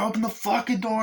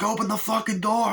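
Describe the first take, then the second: First: Repeated high mock thug yell; yelling gunman. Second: Much higher, yelled mock thug demand; yelling gunman. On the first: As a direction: keep hammering the demand, pitched high. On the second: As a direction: bark it like a thug banging on the door. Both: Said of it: "and the guy's like".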